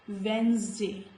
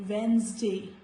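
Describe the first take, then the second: Both takes have the same delivery.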